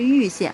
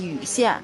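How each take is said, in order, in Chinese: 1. 第一个字是第四声，降调。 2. 第一个字不是降调。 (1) "正确的读音应该是玉县，应该是四声" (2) "当地人念禹县"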